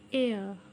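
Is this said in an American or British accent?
British. It is said in a British accent.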